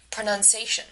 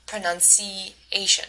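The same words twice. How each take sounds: First: "pronunciation" without the E in the fourth syllable; dropped E vowel. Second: Said in the usual way. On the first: Retold or imitated. Teacher imitating a learner's "pronunciation" missing the E. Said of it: "so that it sounds like pronunciation". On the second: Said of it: "pronounces pronunciation incorrectly by leaving out the medial E vowel".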